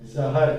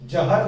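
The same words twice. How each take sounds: First: The word begins with a z sound. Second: The word begins with a j sound. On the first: The speaker calls it right. "जहर है" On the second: The speaker calls it wrong. "जहर नहीं है"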